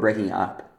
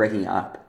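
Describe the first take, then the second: First: The stress falls on the word up. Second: The same.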